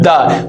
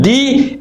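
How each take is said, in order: First: The word ends in a short 'uh' vowel. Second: The word ends in a long 'ee' vowel. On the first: The next word begins with a consonant. "with a consonant, we will pronounce it the" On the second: The next word begins with a vowel. "if that word begins with a vowel, we will pronounce it D"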